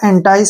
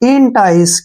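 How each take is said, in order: First: The first syllable sounds like 'en', ending 'tice'. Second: The first syllable sounds like 'in', ending 'tice'. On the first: The speaker calls it wrong. "इसको एंटाइस नहीं पढ़ना" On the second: The speaker calls it right. "E N से बन गया इन"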